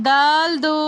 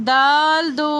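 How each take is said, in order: No difference in how they are said.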